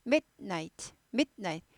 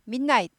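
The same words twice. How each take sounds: First: Midnight slurred into min-night; no stop inside midnight; blended midnight. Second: Midnight split as mit, night; hard t stop inside midnight; better staccato midnight. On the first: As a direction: run midnight together with a long n. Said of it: "midnight보다 좋은 발음 midnight". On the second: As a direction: break midnight cleanly after mid. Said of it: "보다 좋은 발음 midnight". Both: Shown as a demonstration.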